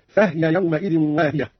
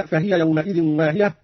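First: فهي said fahya with the ha unvowelled; silent ha. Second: Said in the usual way. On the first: Shown as a demonstration. Teacher demonstrates Qalun's silent ha slowly. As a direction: close the ha of فهي. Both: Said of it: "بإسكان الهاء أيضًا".

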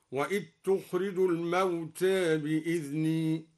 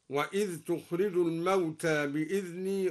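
First: الموتى with a half-inclined ending, the ذ of وإذ merged into تخرج; taqlil and idgham. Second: Said in the usual way. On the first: Shown as a demonstration. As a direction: say وإذ تخرج as wet-tukhrij and الموتى leaning toward e. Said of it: "قلل لفظ الموتى وأدغم الذال في الجيم هكذا". (تقليل الموتى وإدغام الذال) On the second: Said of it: "قلل لفظ الموتى وأدغم الذال".

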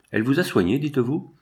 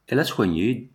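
First: Questioning echo. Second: Said in the usual way. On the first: A narrator's reading. Priest repeats the dying man's claim, questioning it. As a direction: echo it back, rising high on dites-vous.

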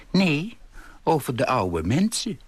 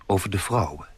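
First: Higher-pitched correction, rising at the end; old lady calling out to correct him; indignant call. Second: Said in the usual way. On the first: A narrator's reading. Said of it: "riep ze". (verontwaardigd uitroepen) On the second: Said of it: "begreep ik".

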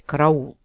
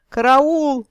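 First: Said in the usual way. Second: High, loud cry of alarm; yelling for help. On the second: A narrator's reading. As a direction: scream it in panic. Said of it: "благим матом орал".

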